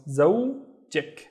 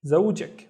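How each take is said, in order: First: زوجك split in two, zow, jik; syllable by syllable. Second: Said in the usual way. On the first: Shown as a demonstration. Teacher showing students the added ending, زوجك in two parts. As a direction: break زوجك slowly before its last syllable. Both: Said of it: "add the ik at the end".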